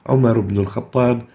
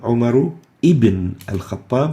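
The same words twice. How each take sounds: First: The middle word links without a glottal stop. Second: A glottal stop begins the middle word. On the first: The speaker calls it right. "we delete the alif and its hamzatul wasl" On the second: The speaker calls it wrong. "We don't say"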